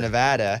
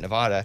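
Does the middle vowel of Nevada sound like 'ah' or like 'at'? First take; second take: at; ah. First: The middle vowel sounds like 'at'. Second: The middle vowel sounds like 'ah'. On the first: The speaker calls it right. "But it's Nevada, and I memorized that because where you at?" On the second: The speaker calls it wrong. "I always grew up calling it Nevada"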